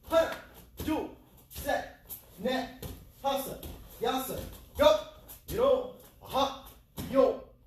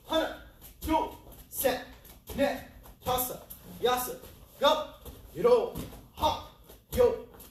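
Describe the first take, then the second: No difference in how they are said.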